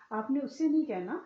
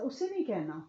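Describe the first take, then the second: First: نہیں punched, louder and higher; stress on NAHIN. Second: Said in the usual way. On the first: Shown as a demonstration. Teacher to listeners at a deathbed, نہیں stressed loud. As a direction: hit the word نہیں hard and loud.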